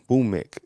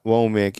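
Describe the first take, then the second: First: The last syllable has a short 'i' vowel. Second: The last syllable has an open 'a' vowel. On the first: The speaker calls it right. "it's it's Womik" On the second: The speaker calls it wrong. "it's not Womack"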